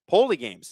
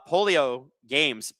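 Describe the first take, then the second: First: The first word is said with two syllables. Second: The first word is said with three syllables. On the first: The speaker calls it right. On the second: The speaker calls it wrong. "not polio games"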